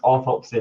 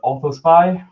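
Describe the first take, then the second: First: The p sound comes before the s sound. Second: The s sound comes before the p sound. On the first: The speaker calls it right. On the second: The speaker calls it wrong.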